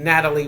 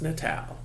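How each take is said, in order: First: The name ends with an extra 'ee' sound. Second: The name ends on the 'l' sound. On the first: The speaker calls it wrong. "I had been saying Natalie Verga for the longest" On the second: The speaker calls it right. "It's Natal"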